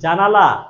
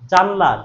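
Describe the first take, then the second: First: All three syllables are said in full. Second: The middle vowel is dropped, leaving two syllables. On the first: This is the original full word. "মূল শব্দ ছিল কি?" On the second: This is the everyday fast-speech form. "আর বললো কি মা?"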